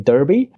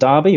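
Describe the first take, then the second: First: It is said with an American pronunciation. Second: It is said with a British pronunciation.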